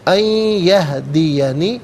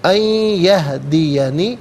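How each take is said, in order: First: The n merges into the y with nasalization. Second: The same.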